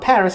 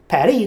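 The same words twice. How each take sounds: First: The name is said with an ordinary English pronunciation. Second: The name is said with a local pronunciation. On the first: The speaker has not been to the place. The speaker calls it wrong. "not Paris" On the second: The speaker has been to the place. The speaker calls it right. "you could say it the fucked up local way"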